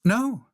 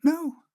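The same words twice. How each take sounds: First: High little reply; high-pitched short no; Frog's answer. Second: Very high little squeak; very high-pitched tiny reply; tiny peep. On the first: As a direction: answer in a small high character voice. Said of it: "said Frog". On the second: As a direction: peep it like someone shrunk very small. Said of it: "peeped Frog". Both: A narrator's reading.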